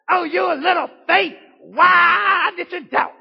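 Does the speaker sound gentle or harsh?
harsh. It is said in a harsh, scolding tone. It is a rebuke for failing. The speaker calls it wrong. "I don't believe he said it like this. ... I guarantee you heard it preached like that"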